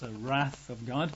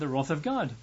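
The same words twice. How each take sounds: First: Wrath is said with an American pronunciation. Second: Wrath is said with a British pronunciation.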